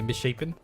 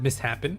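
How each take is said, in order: First: The word is said as mis-shapen. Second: The word is said as mis-happen. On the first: The speaker calls it right. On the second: The speaker calls it wrong. "You've always said mishappen"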